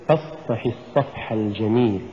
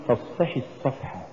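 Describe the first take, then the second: First: "فاصفح" softly, its fa spoken lightly; gentle fa. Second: "فاصفح" with the fa shoved out; pushed fa. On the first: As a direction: say فاصفح without pushing the fa. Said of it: "تقرأ الفاء بلطف". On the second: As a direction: punch the fa of فاصفح as a mistake. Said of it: "بدفع الفاء". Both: Shown as a demonstration.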